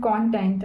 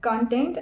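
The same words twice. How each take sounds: First: CONTENT said KON-tent, full o; "content" as in subject matter, KON-tent; first-syllable stress. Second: CONTENT said kun-TENT, weak first vowel; "content" as in satisfied, kun-TENT; second-syllable stress. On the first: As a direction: say "content" with a clear, open "con". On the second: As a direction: say "content" with a reduced "con". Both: Shown as a demonstration. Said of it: "because it is spelled same".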